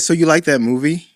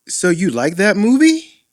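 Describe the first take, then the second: First: The voice falls at the end. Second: The voice rises at the end.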